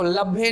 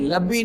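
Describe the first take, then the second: First: The word ends with an added 'e' vowel. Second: The word ends with an added 'ee' vowel. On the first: "लभे नहीं" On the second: "लब्बी नहीं"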